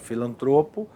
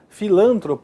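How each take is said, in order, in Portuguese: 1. A sílaba tônica fica na penúltima sílaba. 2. A sílaba tônica fica na antepenúltima sílaba. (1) "essas palavras possuem a pronúncia correta" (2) "normalmente transformadas em proparoxítonas... Errado"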